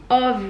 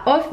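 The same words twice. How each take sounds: First: "of" ending in a voiced V sound; correct English pronunciation. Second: "off" ending in an F sound; wrong pronunciation. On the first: Vlogger shows viewers the English way, of with a V. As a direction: say "of" as "ov", buzzing the end. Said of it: "mais ça se dit of". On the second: Vlogger shows viewers the wrong way, off with an F. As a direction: say "off" with a hissed F at the end. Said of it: "ça se dit pas off". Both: Shown as a demonstration.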